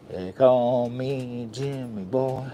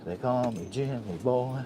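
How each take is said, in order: First: Slow, stretched persona intro; slow put-on voice. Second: Said in the usual way. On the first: Announcing his name to viewers in a slow, stretched put-on voice. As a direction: drag each word out, a lightly voiced stage persona. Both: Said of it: "What is wrong with his voice?".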